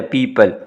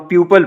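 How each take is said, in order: First: पीपल with a long ee; long ee people. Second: प्यूपल with a y glide before oo; wrong pyoople. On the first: Teacher models the correct long पीपल. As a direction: hold the ee in पीपल. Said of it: "इसको लंबा करना है आपने". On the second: Teacher shows the common wrong प्यूपल. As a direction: say प्यूपल as pyoo-pul. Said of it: "ये प्यूपल नहीं है". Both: Shown as a demonstration.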